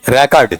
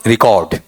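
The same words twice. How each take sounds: First: "रिकॉर्ड" as REK-ard, open first syllable; noun pronunciation. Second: "रिकॉर्ड" as ri-KAWD, long second vowel; light ri, stressed KAWD in "रिकॉर्ड"; verb pronunciation. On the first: Teacher reading the word as a noun, noun pronunciation. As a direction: stress REK, weaker ending on "रिकॉर्ड". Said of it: "noun में". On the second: Teacher reading the word as a verb, verb pronunciation. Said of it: "verb में". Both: Shown as a demonstration.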